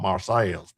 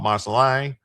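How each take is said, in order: First: It is said the way the speaker's home region says it. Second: It is said the way the city's locals say it. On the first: This is how people where the speaker comes from say it. "We call it Marseilles" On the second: This is how the local people say it. "but they call it Marseille"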